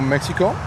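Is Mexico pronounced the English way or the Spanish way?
English. Mexico is said with an English pronunciation.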